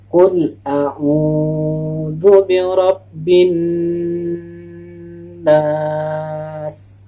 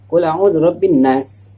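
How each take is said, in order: First: It is recited slowly with vowels held. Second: It is recited quickly with vowels rushed. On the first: The speaker calls it right. "sesuai dengan panjang pendeknya" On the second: The speaker calls it wrong. "terlalu cepat"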